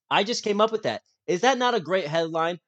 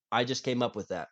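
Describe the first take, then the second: First: Proud, pitched up and louder; bragging about the headline; excited. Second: Said in the usual way. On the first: Real, not acted.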